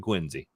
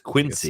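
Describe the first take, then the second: First: The name is said the local way. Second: The name is said the common outsider way. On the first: This is the actual pronunciation. The speaker calls it right. "but it's actually Quincy" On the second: This is how people often get it wrong. The speaker calls it wrong. "often mispronounced as Quincy"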